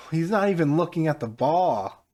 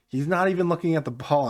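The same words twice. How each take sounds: First: Disbelieving. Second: High, loud amazed repeat; disbelieving. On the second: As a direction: say it stunned, voice raised. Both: Real, not acted. Disbelief at own goal.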